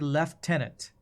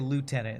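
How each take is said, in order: First: It is said with a British pronunciation. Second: It is said with an American pronunciation. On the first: The speaker calls it wrong. "British people say that's sounds very weird" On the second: The speaker calls it right. "we say lieutenant in the U S"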